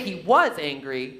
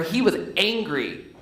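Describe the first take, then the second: First: The stress falls on the word was. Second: The stress falls on the word angry. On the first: He is no longer angry now. "it means now he's not angry" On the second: His feeling was anger, not some other emotion. "It means he wasn't happy, sad, or anything else"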